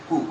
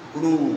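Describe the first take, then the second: First: The vowel is short, one beat. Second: The vowel is long, two beats. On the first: "प्रथम वाले को ह्रस्व" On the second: "दूसरे को दीर्घ"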